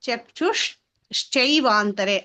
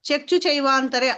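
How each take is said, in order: First: The first word ends with an 'sh' sound. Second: The first word ends without an 'sh' sound. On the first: The speaker calls it right. "అలా కాకుండా చక్షుష్ చైవాంతరే అలా పలకాలి" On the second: The speaker calls it wrong. "చక్షు చైవాంతరే అలా అంటున్నావు"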